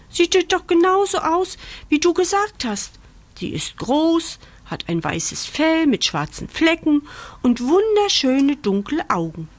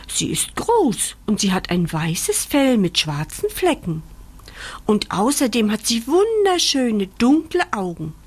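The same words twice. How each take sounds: First: High-pitched little bunny voice; insisting rabbit. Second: Lightly voiced puppy, near narrator pitch; puppy describing. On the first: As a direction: insist point by point in a raised voice. Rabbit repeats puppy's description back. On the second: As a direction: describe mama lovingly, word by word. Bandit describes his mother. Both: A narrator's reading.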